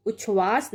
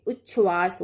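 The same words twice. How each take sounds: First: उच्छ्वास as uchhvaas, a single chh; wrong single consonant. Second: उच्छ्वास as uch-chhvaas, held double chh; correct doubled consonant. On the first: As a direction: say उच्छ्वास as u-chhvaas. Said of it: "ना होके". (उच्छ्वास को उछ्वास जैसा बोलें) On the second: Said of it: "उच्छ्वास होगा". (उच्छ्वास में दोहरा च्छ) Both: Shown as a demonstration.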